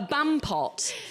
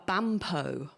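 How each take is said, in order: First: The final t is clearly pronounced. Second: The final t is silent, like Merlot. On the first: The speaker calls it right. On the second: The speaker calls it wrong.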